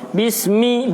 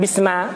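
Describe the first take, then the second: First: The word ends with an i vowel. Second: The word ends with an a vowel. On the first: The speaker calls it right. "Makanya dibaca ismi, bismi" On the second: The speaker calls it wrong. "bukan bisma"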